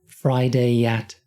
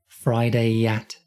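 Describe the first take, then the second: Both takes have the same delivery.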